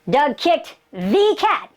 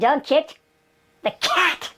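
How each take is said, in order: First: The word the carries the main stress. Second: The word cat carries the main stress. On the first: It was that particular special cat. "he kicked the one, he kicked the cat, the super one" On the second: It was the cat, not something else. "he didn't kick the dog, he didn't kick the rat"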